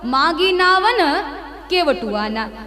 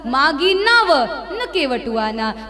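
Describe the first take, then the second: First: 'Na' is joined to the word before it. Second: 'Na' is joined to the words after it. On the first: The boat was not asked for, so the boatman offers to bring it. "यदि न को आप पहले बोलोगे तो क्या होगा?" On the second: The boat was asked for, but the boatman refuses to bring it. "पर यदि न को इधर बोलोगे तो क्या होगा?"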